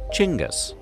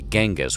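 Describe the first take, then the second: First: The name begins with a soft sound. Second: The name begins with a hard G sound. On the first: The speaker calls it right. "the G is soft, so it's actually pronounced like this" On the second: The speaker calls it wrong. "most Westerners say Genghis with a hard G"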